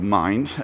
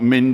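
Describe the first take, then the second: First: The name is said with an English pronunciation. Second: The name is said with a Welsh pronunciation. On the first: The speaker calls it right. "So it is called Mind, M Y N D, in English" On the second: The speaker calls it wrong. "so not mind in Welsh"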